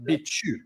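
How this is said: The syllables are blended into one quick word. "when Chinese people pronounce it, they kind of chew on the syllables a bit"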